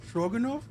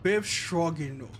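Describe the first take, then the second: First: "Stroganov" tried hesitantly, rising like a question; tentative pronunciation try. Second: "Biff Stroganov" said slowly, with the stress on "Biff" and a falling tune; confident pronunciation. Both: Shown as a demonstration. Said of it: "Am I saying that correctly?".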